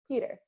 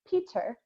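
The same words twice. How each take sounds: First: The middle consonant is a soft D sound. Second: The middle consonant is a clear T sound. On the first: This is the everyday American way of saying it. "in America, we actually say a D sound" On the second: This is the more British way of saying it. "none of us really say Peter, right? That's more of a English British accent"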